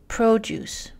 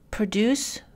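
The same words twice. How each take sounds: First: English "produce" as PRO-duce; "produce" with the English noun stress; stress on first syllable. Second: English "Produce" as pro-DUCE, rising; "Produce" with the English verb stress; stress on second syllable. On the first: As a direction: hit the PRO of "produce", full first vowel. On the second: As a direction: hit the DUCE of "Produce", first vowel reduced. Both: Shown as a demonstration. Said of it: "une syllabe reçoit un accent primaire".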